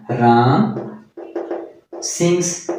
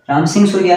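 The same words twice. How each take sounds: First: Ram, pause, then sings said slowly and apart; teacher spelling out Ram sings word by word for students; slow dictation. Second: Said in the usual way. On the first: Shown as a demonstration. Teacher dictating Ram sings to the class, spaced and slow.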